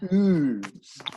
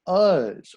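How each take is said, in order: First: The vowel is a long 'oo' sound. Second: The vowel is a short 'uh' sound.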